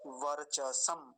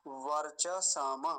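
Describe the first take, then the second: First: वर्चसम slowly as var-cha-sam, stopped on m; with halant. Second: वर्चसम drawn out as var-cha-saa-ma, open final vowel; without halant. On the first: Teacher giving the form with halant, with halant. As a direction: close वर्चसम firmly on the final m. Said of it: "हलंत है तो क्या बोलेंगे". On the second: Teacher showing how it would sound otherwise, without halant. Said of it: "हलंत नहीं होता तो कैसे बोलते". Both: Shown as a demonstration.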